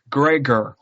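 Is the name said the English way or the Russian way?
English. The name is said with an English pronunciation. This is how the English-speaking characters say it. "in a very English way as Gregor"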